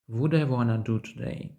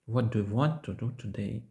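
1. Перші слова скорочені і злиті разом. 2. Кожне слово вимовляється повністю і окремо. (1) "скажуть" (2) "як незручно це вимовляється"

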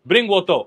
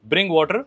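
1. यह कोलोकवा उच्चारण में कहा गया है। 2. यह मानक अंग्रेज़ी उच्चारण में कहा गया है। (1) "कोलोकवा में बोलते हैं ब्रिंग वोटो" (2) "इंग्लिश में जैसे हुआ ब्रिंग वाटर"

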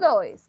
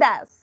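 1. La vocal se desliza como 'oi'. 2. La vocal es un sonido 'uh' corto y simple. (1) "no dois" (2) "The pronunciation das"

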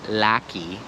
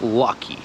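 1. Pierwsza samogłoska brzmi jak otwarte 'a'. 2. Pierwsza samogłoska brzmi bliżej 'o'. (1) "to nie jest lucky" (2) "to jest lucky, to jest taki o"

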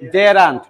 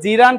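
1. প্রথম স্বরধ্বনিটি 'eh'-এর মতো শোনায়। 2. প্রথম স্বরধ্বনিটি 'ee'-এর মতো শোনায়। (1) "বর্গ জ একারে জে" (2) "এটা কিন্তু জিরান্ট না"

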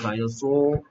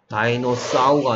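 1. 마지막 음절은 'sore'처럼 들려요. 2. 마지막 음절은 'sow'처럼 들려요. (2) "다이노사우가 아니고"

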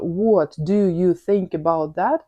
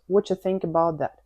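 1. Кожне слово вимовляється окремо і повністю. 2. Перші слова редуковані й зливаються разом. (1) "Тобто" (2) "Була пісня у Pussycat Dolls"

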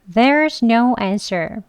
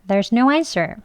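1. 이 문장은 천천히 발음돼요. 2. 이 문장은 빠르게 발음돼요. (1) "천천히 해볼게요" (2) "빠르게도 해보겠습니다"

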